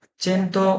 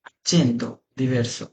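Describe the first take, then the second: First: Accento said alone, pitched higher and softer; raised model word. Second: Accento diverso drawn out slowly and softly; slow careful demo. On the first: (উঁচু সুরে আলাদা করে Accento) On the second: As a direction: lay out each sound of Accento diverso. (ধীরে ধীরে Accento diverso উচ্চারণ) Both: Shown as a demonstration. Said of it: "Accento যেটা accent বলে".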